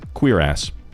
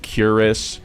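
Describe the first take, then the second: First: It sounds like the two words 'queer ass'. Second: It sounds like 'curis', said as one short word. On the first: The speaker calls it right. "it is pronounced queer ass" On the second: The speaker calls it wrong. "people mispronounce this one all the time"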